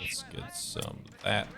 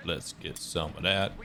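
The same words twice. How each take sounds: First: Whispering "Let's get some of that" slow and soft; whispered. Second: Said in the usual way. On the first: Real, not acted. Gamer eyeing a target, whispering to himself. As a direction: breathe "Let's get some of that" under your breath. Muttered to himself while playing.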